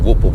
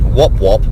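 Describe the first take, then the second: First: The vowel is a long 'oo' sound. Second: The vowel is a short 'o' sound. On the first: This is how it is said in Australia. "we would say whoop whoop in Australia" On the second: This is how it is said in New Zealand. "you've pronounced it whop whop"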